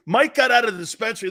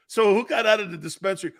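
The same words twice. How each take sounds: First: Fast, laughing through the line. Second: Said in the usual way. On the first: Real, not acted. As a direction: blurt it out while cracking up. Laughing punchline about Mike.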